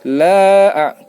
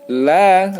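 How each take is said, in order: First: The vowel is held for three beats. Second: The vowel is held for two beats. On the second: "La dua"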